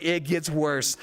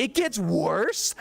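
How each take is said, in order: First: Said in the usual way. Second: Slow, rising, incredulous "It gets worse?" with "gets" stretched high; disbelief. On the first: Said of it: "I was like". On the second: Retold or imitated. Coworker hearing the worst scene is still ahead, slow stunned question. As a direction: coworker can't believe it, drawn out, pitch climbing. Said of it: "And he's like, he's like".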